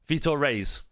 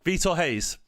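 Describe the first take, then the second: First: The surname starts with an R sound. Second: The surname starts with an H sound. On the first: The speaker calls it wrong. "Is it like rays then?" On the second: The speaker calls it right. "ours are pronounced like H's. Okay, so it's like Hayes"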